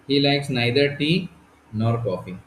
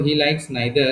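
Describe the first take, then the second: First: Slow teaching read. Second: Said in the usual way. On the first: Shown as a demonstration. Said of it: "he likes what?". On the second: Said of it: "बड़ा सुंदर sentence है इसमें देखो".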